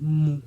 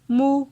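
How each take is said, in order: First: The syllable is said on a low tone. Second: The syllable is said on a mid tone. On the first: "ton bas" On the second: "ton moyen"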